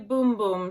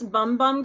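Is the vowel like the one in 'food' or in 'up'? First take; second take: food; up. First: The vowel sounds like the one in 'food'. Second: The vowel sounds like the one in 'up'. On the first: The speaker calls it right. "It's actually Boom Boom" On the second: The speaker calls it wrong. "I've been pronouncing this Bum Bum Cream"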